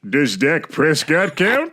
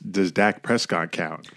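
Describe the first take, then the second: First: It is said in a high Plankton cartoon voice. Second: It is said in his natural speaking voice.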